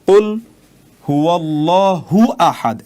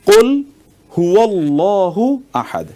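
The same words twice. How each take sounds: First: The syllable 'hu' is joined to 'ahad'. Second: The syllable 'hu' stays joined to 'Allah'. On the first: The speaker calls it wrong. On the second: The speaker calls it right.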